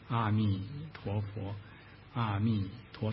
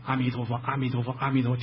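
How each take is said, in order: First: The phrase is recited at a slow pace. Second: The phrase is recited at a fast pace. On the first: It is late and others should not be disturbed. "念慢点" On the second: The reciter feels energetic and excited. "快点吧啊"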